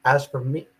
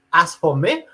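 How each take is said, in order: First: Said in the usual way. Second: A put-on generic European accent, pitched higher. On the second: Reading a foreign commenter's post in a put-on European accent. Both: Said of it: "How's my European accent?".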